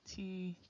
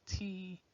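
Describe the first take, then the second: Both takes have the same delivery.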